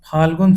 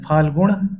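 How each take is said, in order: First: Said in the usual way. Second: फाल्गुण ending in retroflex ṇ; फाल्गुण with ण in place of न. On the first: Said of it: "शुद्ध है". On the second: Shown as a demonstration. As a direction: curl the tongue back at the end of फाल्गुण. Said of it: "अशुद्ध होता है".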